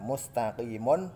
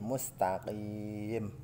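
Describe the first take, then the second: First: The word ends with a vowel and final n. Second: The word ends on a silenced m sound. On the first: The reading continues without stopping. "Ini ada mem di belakang, ada domah ten" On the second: The reading stops at this word. "huruf yang dimatikan karena wakof"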